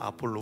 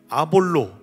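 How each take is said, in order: First: The middle consonant is an aspirated p. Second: The middle consonant is a soft, unaspirated b. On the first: This is how the name is actually pronounced. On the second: This is the familiar form of the name.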